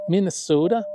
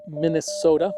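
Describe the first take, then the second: First: Put-on a mild Minnesota accent on Minnesota; lightly drawing out Minnesota the local way. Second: Said in the usual way. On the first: Ham radio operator imitating how Minnesotans say it, mild Minnesota accent. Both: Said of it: "or as people up there might say".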